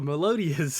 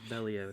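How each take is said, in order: First: It is pronounced like the word melodious. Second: It is pronounced Meliodas, ending in -das. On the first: The speaker calls it wrong. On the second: The speaker calls it right.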